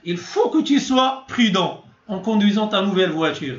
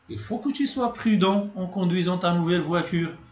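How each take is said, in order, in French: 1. Elle est prononcée fortement et avec insistance. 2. Elle est prononcée légèrement et doucement. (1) "une tonalité un peu forte" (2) "d'une manière un peu légère"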